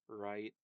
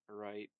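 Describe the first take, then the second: Both takes have the same delivery.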